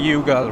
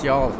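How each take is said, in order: First: The name is said with two syllables. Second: The name is said with one syllable. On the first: The speaker calls it wrong. "you think it would be Yugal" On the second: The speaker calls it right. "it's y'all"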